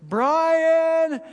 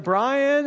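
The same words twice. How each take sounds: First: High, loud urgent call; calling out louder. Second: High, loud call for her husband. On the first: Wife calling husband under the car, loud urgent call. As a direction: call over the grinding noise so he hears. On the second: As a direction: call him from the kitchen. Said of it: "She's like". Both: Retold or imitated.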